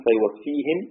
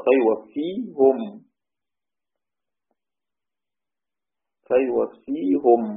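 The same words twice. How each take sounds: First: فيوفيهم with the ha in kasra, ending -hi-m; فيوفيهِم بكسر الهاء; Hafs reading, kasra on ha. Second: فيوفيهم drawn out slowly, ending in -hu-m with the ha in damma; فيوفيهُم بضم الهاء ببطء; Ruways reading, damma on ha. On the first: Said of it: "ضم الهاء، حفص يقول". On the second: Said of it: "رويس يقرأ". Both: Shown as a demonstration.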